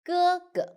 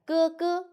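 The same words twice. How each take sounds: First: The second syllable is light and short. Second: Both syllables are full, high and level. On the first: The speaker calls it right. "Second one, we need to read light and short" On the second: The speaker calls it wrong. "if both you read the first tone, it should be like"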